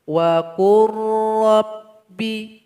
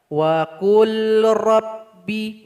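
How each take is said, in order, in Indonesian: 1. Huruf L melebur sepenuhnya ke dalam R yang bertasydid. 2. Huruf L dibaca terpisah sebelum R. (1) "Yang betul itu" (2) "Salah kalau dibaca wa qul rabbi, nggak boleh"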